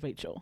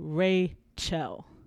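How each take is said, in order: First: The name runs together as one smooth word. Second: The syllables are separated with a hard ch. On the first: An ordinary adult says the name. "Just one word that kind of runs together" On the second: A childlike character says the name. "almost over enunciates her name. ... Very hard ch sound for the second half of her name"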